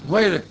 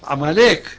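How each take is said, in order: First: The middle vowel is an oi sound. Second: The middle vowel is a plain a sound. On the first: The speaker calls it wrong. "לא עמויק" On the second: The speaker calls it right. "ויגידו עמלק"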